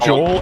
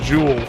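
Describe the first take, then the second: First: The name is said as 'Joel'. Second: The name is said as 'Jewel'. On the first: The speaker calls it right. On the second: The speaker calls it wrong.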